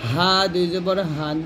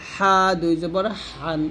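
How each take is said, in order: First: হান begun with a light glottal h; soft Arabic ha. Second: হান begun with a strong pharyngeal h; throaty Arabic ḥa. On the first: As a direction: say হা and হান with a loose, open h, as Arabic ه. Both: Shown as a demonstration. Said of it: "তানভিনের ব্যাপারটা দেখি".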